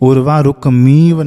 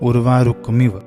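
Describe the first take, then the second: First: The vowel before the final 'v' is long. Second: The vowel before the final 'v' is short. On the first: The speaker calls it wrong. "उर्वारुकमीव नहीं है" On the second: The speaker calls it right. "छोटी का मात्रा यहाँ पे"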